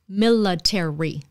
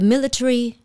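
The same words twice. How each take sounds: First: Every syllable is said in full, American style. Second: The ending is shortened, British style. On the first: "if you want an American accent, you need to actually read it all out" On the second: "if you heard the B B C reading the news, it would be the today the military. That's the way they say it"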